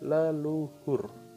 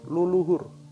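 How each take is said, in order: First: The first syllable has a weak schwa vowel. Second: The first syllable has a full 'u' vowel. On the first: This is how people usually say it. "Pelafalan kita adalah leluhur" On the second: This is the literal doubled form. "dibaca dua kali, menjadi luluhur"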